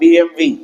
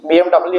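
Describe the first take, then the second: First: The last letter is said as 'vee'. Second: The last letter is said as 'double-u'. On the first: The speaker calls it right. "బిఎంవి అనాలట" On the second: The speaker calls it wrong. "బిఎండబ్ల్యూ కాదండి"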